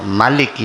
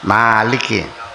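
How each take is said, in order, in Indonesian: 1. Vokal pertama dibaca pendek. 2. Vokal pertama dibaca panjang. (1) "kalau di negara lain" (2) "Kalau di sini panjang ya?"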